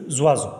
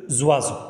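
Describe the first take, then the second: No difference in how they are said.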